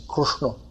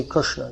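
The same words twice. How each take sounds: First: Krishna with u for i, like Krushno; regional Krushno. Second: Krishna with an i in the first syllable; standard Krishna. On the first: Teacher showing regional Indian form, Krishna as Krushno. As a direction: turn kri into kru and round the ending of Krishna. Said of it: "they say Krishna". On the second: Teacher showing the form not used, Krishna with kri. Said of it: "they don't say Krishna". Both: Shown as a demonstration.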